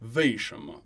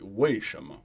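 First: The first word begins with a soft V sound. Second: The first word begins with a clear W sound. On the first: The speaker is from the north. "a northerner might throw in a little V sound instead" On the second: This is the standard pronunciation. "standard Mandarin ... It's a w, clearly a W"

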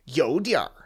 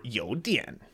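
First: The word ends with an r-coloured sound. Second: The word ends with a plain n sound. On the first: "if you're adding R ... it's just changing the pronunciation of the previous syllable" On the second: "you can drop the R"

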